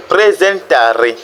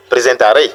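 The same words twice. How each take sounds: First: "presentare" slowly, with TA stretched and stressed. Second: "presentare" run together, accent moved onto the final RE; wrong final stress. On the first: Teacher corrects the wrong version, stress on TA. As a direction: correct it to "presentare" as pre-zen-TAA-re. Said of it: "l'accent tonique tombe sur le ta". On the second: Teacher shows learners what not to say, stress on RE. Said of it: "Et non, presentare". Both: Shown as a demonstration.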